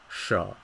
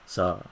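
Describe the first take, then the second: First: It starts with a retroflex sh-like sound. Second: It starts with a plain s sound. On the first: This is how some southern speakers say it. "retroflex consonant, meaning that the tip of your tongue will be pointing up" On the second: This is the northern way of saying it. "instead of saying something like sa"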